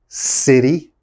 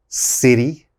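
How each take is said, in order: The two takes are said the same way.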